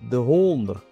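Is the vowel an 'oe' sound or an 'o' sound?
o. The word is said with an 'o' vowel. This is the speaker's own dialect form.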